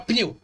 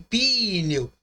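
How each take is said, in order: First: The p and n are said together quickly. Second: An extra vowel is heard between p and n. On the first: The speaker calls it right. "Você fala pneu. Você fala muito rápido" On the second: The speaker calls it wrong. "Você não fala P I N E U, P I, pneu"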